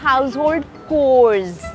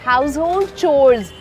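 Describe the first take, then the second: First: The last word begins with a 'k' sound. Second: The last word begins with a 'ch' sound. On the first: The speaker calls it wrong. "Not house hold कोर्स" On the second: The speaker calls it right. "It's called चोर्स"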